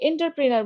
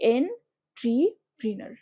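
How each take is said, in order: First: The second syllable sounds like 'ter'. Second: The second syllable sounds like 'tri'. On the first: The speaker calls it wrong. "আমরা অনেকে এন্টারপ্রেনার বলে থাকি" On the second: The speaker calls it right. "But উচ্চারণটাকে ঠিক মতো করো"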